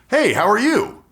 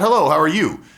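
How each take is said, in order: First: The greeting sounds warm and genuinely interested. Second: The greeting sounds automatic and disengaged.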